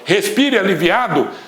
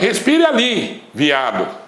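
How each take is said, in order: First: It is said as one unbroken phrase. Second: It has a pause after ali.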